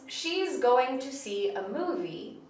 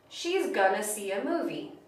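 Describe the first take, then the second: First: Going to is said as two full words. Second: Going to is reduced to a single word, gonna. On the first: "The sentence" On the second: "where you have going to that becomes gonna"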